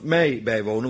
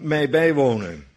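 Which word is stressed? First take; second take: mij; bijwonen. First: The stress falls on mij, not on bijwonen. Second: The stress falls on bijwonen, not on mij.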